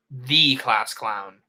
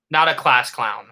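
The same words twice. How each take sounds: First: "the" said long as "thee", low and slow; stress on THE. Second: "a" set up for contrast, phrase kept low; stress contrast. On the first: Narrator names him the one class clown, stress on "the" as "thee". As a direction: lean slowly on "the", pronounced "thee". Contrast of a and the. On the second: Narrator corrects the class clown nickname, stress contrast. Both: A narrator's reading.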